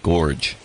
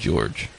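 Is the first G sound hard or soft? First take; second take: hard; soft. First: The first G is a hard sound. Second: The first G is a soft sound. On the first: This is the older way of saying it. "They used to call people Gorge" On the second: This is the later way of saying it. "and then it became George"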